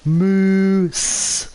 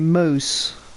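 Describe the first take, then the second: First: The vowel sounds like the 'oo' in goose. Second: The vowel sounds like the 'ow' in mouse. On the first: The speaker calls it right. "But it's supposed to be moose" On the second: The speaker calls it wrong. "It kind of sounds like I'm saying mouse a bit incorrectly"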